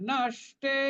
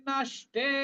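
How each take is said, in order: The two takes are said the same way.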